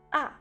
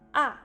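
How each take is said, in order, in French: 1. Le ton chute vite, du haut vers le bas. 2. Le ton chute vite, du haut vers le bas.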